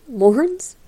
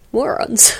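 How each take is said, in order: First: Morons? with a rising, questioning tune; puzzled question. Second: Morons. with a falling tune, said as a plain fact; flat statement. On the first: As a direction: ask Morons? in disbelief, pitch going up. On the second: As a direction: state Morons. as a settled answer. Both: Shown as a demonstration. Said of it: "He just called them the Morons".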